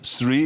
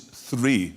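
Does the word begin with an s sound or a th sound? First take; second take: s sound; th sound. First: The word begins with an s sound. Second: The word begins with a th sound. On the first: The speaker calls it wrong. "It's not three" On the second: The speaker calls it right. "it is three, with TH"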